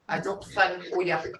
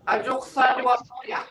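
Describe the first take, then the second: First: The reduced form drops the 'wa' syllable. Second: The full form keeps the 'wa' syllable. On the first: It is the everyday spoken way of saying it. "the way we speak, we say we just say Ajuksan" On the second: It is the formal way of saying it. "this is uh, formal because you're saying spider web"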